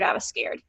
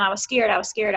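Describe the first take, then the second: First: Drops to a breathy whisper; whispered repeat. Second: Said in the usual way. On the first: Real, not acted. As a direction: let the last repeat fade into a whisper. Admits fear, then repeats it.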